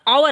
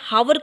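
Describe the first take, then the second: First: The word begins with a vowel sound. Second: The word begins with an h sound. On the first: The speaker calls it right. "आवर आता है" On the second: The speaker calls it wrong. "हावर की जगह"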